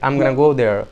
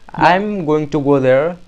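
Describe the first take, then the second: First: Going to is reduced to one word, gonna. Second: Going to is said fully as two words. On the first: "you can say I'm gonna go there" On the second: "instead of saying"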